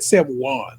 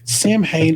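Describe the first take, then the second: First: It is said in the Irish way. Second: It is said in a non-Irish way. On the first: The speaker calls it right. "They pronounce it the Irish way, which is probably the way to pronounce it" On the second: The speaker calls it wrong. "is how I pronounce it because it's how I've been taught to pronounce it"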